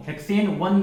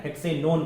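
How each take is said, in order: First: हेक्सेन वन said as two separate words, hexane then one; wrong reading shown. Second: हेक्सेनोन said as one word, hexanone with a long o; right reading shown. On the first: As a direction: read हेक्सेन वन split apart, as the wrong way. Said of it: "हेक्सेन वन नहीं पढ़ना है". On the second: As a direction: run हेक्सेनोन together as a single word. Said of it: "हेक्सेनोन पढ़ना है आपको". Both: Shown as a demonstration.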